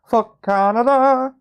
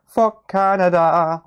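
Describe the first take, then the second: First: Chanted, much higher, loud and slow, hammed up; chanted, push it way up into a squeal; higher South Park chant. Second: Louder, higher and slow, hammed up; South Park song quote. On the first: Chanted, repeating the South Park meme even higher, hammed-up squeal. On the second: Quoting the South Park meme at Canadian chat, hammed-up chant. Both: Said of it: "South Park memes".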